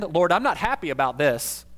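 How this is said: The tone is firm and demanding. The speaker wants their stance known firmly. "a Martha tone of voice"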